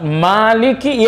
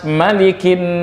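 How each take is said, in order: First: The first vowel 'ma' is drawn out long. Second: The first vowel 'ma' is kept short. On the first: It refers to the Day of Judgment. "Kalau ma-nya panjang" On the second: It refers to present worldly life. "kalau tidak ada yang panjang"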